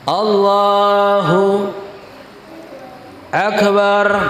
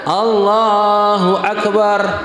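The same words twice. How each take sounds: First: There is a pause between the two words. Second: The two words run on with no pause. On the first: The speaker calls it wrong. "nggak boleh diam di antara dua kalimat" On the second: The speaker calls it right. "Yang benar adalah"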